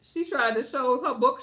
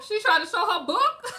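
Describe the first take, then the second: First: Said in the usual way. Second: High, loud, laughing disbelief; incredulous laughing question. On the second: Real, not acted.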